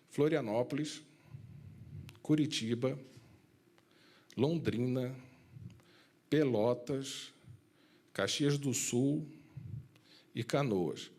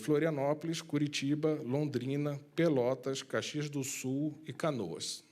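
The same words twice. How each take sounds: First: The list is said at a slower pace. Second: The list is said at a quicker pace.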